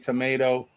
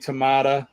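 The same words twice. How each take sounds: First: It is said in an American accent. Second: It is said in a British accent. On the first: "I say" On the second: "You say"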